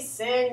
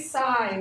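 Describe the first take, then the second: First: The vowel is short, rhyming with pin. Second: The vowel is long, rhyming with pine. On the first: The speaker calls it wrong. "Don't say sin" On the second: The speaker calls it right. "So you say sign"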